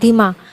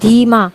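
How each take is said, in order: First: The first vowel is kept short. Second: The first vowel is held long. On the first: The speaker calls it wrong. "એવી રીતે નહીં કહેવાય ધીમા તો પછી આ નાનું લખશે" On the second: The speaker calls it right. "ધીમાં તો એ પ્રોપરલી ધી મોટું જ લખશે"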